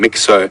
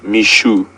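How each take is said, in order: First: The middle consonant sounds like ks. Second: The middle consonant sounds like sh. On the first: The speaker calls it wrong. "we were calling him Mixo" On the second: The speaker calls it right. "it is pronounced Mishu"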